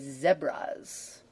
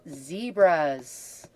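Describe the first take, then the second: First: It is said with a British accent. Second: It is said with an American accent.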